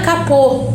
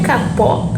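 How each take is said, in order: First: "capô" with a closed o, stressed at the end; closed final vowel. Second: "capó" with an open o at the end; open final vowel. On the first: Teacher correcting the reading, closed final o in "capô". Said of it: "acento circunflexo, terminado em O". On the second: Teacher reading out the word, open final o in "capó". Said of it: "Ah, capô". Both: Shown as a demonstration.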